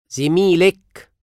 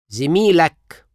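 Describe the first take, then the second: First: زميلك said zimilek, ending in -ek; feminine you form. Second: زميلك said zimilak, ending in -ak; masculine you form. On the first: Teacher drills the feminine form of your colleague. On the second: Teacher drills the masculine form of your colleague. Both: Shown as a demonstration.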